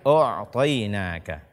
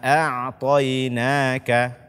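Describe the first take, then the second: First: The first vowel is heavy and rounded, like o. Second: The first vowel is light and open, like a. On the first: The speaker calls it wrong. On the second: The speaker calls it right. "bacalah a"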